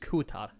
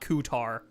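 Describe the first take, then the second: First: The name ends with a crisp t sound. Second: The name ends with an American r sound. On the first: The speaker calls it right. "at least put a little bit of Nordic into it. It's Kutat" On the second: The speaker calls it wrong. "not Kutar. Fucking American"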